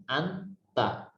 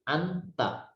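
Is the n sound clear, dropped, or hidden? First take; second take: clear; clear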